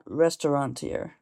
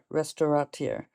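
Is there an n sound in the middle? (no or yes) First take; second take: yes; no. First: It has an n sound before the t. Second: It has no n sound before the t. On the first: The speaker calls it wrong. "It's not restaurateur with an N in there" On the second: The speaker calls it right. "It's restaura, restaurateur"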